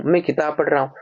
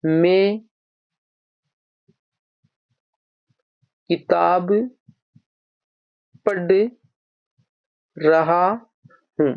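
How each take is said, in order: First: Said in the usual way. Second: Long pauses, last words dragged very slowly. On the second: Shown as a demonstration. Teacher laying out an example sentence for the class, slowly. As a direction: stretch the sentence out word by word. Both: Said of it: "पढ़ना".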